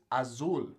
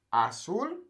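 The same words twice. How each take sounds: First: "azul" slowly with a buzzing English Z; "azul" said the wrong way, voiced Z; wrong Z sound. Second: "Azul" said as asul, rising; S sound. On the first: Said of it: "versus azul". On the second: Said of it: "It makes that S sound". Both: Shown as a demonstration.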